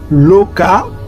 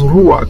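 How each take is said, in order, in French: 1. Le mot commence par un son L. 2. Le mot commence par un son R. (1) "Comme le R a le son du L, on va prononcer Loka ou Luka au lieu de Rouak" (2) "que vous voyez que les gens prononcent Rouak"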